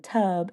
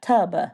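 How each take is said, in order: First: The word ends cleanly on the b sound. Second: The word ends with an added uh sound. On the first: The speaker calls it right. "we say tub" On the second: The speaker calls it wrong. "not tub because they're add you're adding an extra sound at the end of the word"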